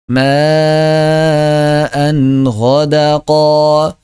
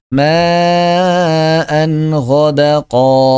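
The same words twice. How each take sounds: The two takes are said the same way.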